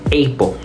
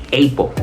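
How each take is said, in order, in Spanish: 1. La primera vocal suena como el nombre de la letra A. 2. La primera vocal suena como el nombre de la letra A.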